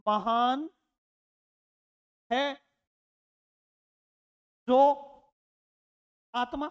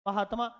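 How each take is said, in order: First: Each word said apart with long pauses; separated slow words. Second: Mahatma said quickly as one word; Mahatma in one quick breath; quick joined word. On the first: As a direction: drag the phrase out word by word. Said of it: "और इसका मैंने क्या बना दिया?". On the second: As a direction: run it together short and fast. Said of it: "इसका मैं बना दिया मैंने". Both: Shown as a demonstration.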